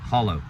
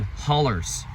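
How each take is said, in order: First: Said in the usual way. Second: "hollers" with an -ers ending for hollow; Appalachian pronunciation. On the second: Retold or imitated. Traveler showing how Appalachians say hollow, Appalachian pronunciation. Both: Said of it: "That's the way they say hollow".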